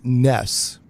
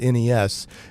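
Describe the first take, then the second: First: It is said as one word, like ness. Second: It is spelled out as three separate letters. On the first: The speaker calls it right. "it's supposed to be pronounced" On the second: The speaker calls it wrong.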